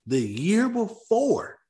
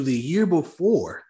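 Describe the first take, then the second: First: "the year before" pitched higher and stretched very slow; slower, higher repeat. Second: "the year before" said slowly for weight; drawn out. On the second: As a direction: lean on "the year before", slowing down. Stressing key point, stretched. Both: Acted.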